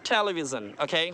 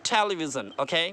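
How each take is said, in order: Both takes have the same delivery.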